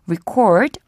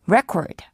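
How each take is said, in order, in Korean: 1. 강세는 두 번째 음절에 있어요. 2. 강세는 첫 번째 음절에 있어요. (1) "동사일 때는 강세가 뒤에 있고요" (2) "명사일 때는 강세가 앞에 있습니다"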